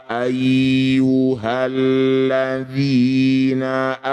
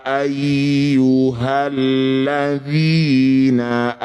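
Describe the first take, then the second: The two takes are said the same way.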